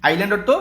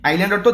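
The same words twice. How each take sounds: No difference in how they are said.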